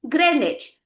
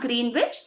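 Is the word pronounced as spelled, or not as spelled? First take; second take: not as spelled; as spelled. First: The word is not pronounced as it is spelled. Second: The word is pronounced just as it is spelled. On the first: The speaker calls it right. "it's pronounced as Greenwich" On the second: The speaker calls it wrong. "Not Greenwich"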